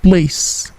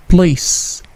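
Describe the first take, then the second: No difference in how they are said.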